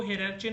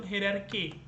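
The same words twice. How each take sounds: First: "hierarchy" with CH, "-ar-chee"; mispronunciation. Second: "hierarchy" with a hard K, "-ar-kee"; correct pronunciation. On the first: Teacher telling students what not to say, mispronunciation. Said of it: "hierarchy नहीं बोलने का". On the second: Teacher telling students what to say, correct pronunciation. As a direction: hit a K at the end of "hierarchy". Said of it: "आपको बोलना है simple hierarchy". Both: Shown as a demonstration.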